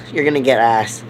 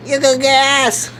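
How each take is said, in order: First: Low, growled taunt; deep put-on voice. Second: Said in the usual way. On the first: Warning Bobby he'll get shot, low growl. Line repeated, second deep.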